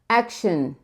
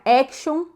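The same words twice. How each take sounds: First: The final syllable is a reduced, short shin. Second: The final syllable has a full, clear vowel. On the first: The speaker calls it right. "shin. A gente quer grudar o som do sh com o N" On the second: The speaker calls it wrong. "não é action"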